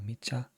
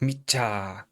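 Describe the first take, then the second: First: The A vowel is short. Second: The A vowel is long. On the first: The speaker calls it wrong. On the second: The speaker calls it right.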